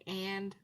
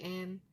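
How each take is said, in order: First: The word is said in full. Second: The word is said shortened. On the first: "Instead of saying and" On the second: "we go like and"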